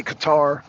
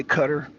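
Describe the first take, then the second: First: Qatar as kuh-TAR; Qatar with the weight on "tar"; own pronunciation. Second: Qatar as CUTTER; Qatar stressed up front, rhyming with butter; other people's pronunciation. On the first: Streamer giving their own version, Qatar said kuh-TAR. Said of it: "I say Qatar". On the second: Streamer quoting what others say, Qatar said CUTTER. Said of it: "I hear some people say Qatar". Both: Shown as a demonstration.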